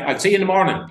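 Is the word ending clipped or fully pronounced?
clipped. The final -ing of morning is clipped.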